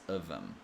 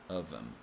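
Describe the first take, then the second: First: The th sound in them is dropped. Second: The same.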